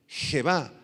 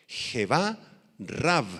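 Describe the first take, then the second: First: "Jebá" with the stress landing on the final A, he-BA; stress on last A. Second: "Jebá, Rav" said slowly with stress on the final A of Jebá; Aramaic words. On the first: Pastor spelling out Jebá for the church, stress on the A. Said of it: "con acento en la A". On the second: Pastor teaching the church Aramaic words, careful pronunciation. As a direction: sound out "Jebá" as he-BA and "Rav" as one short rolled-R syllable. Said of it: "explicarles las palabras arameas". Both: Shown as a demonstration.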